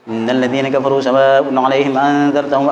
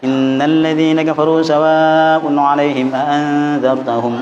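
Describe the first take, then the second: First: Rushed, with the nasal sounds slurred and unclear. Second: Quick, but the nasal sounds are clearly held. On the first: The speaker calls it wrong. "Ada yang prakteknya cepet ya. ... Sekarang tuh enggak jelas itu" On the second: The speaker calls it right. "Kan ada dengung-dengungnya itu kan? Masih bisa"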